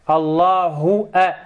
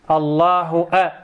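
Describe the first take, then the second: Both takes have the same delivery.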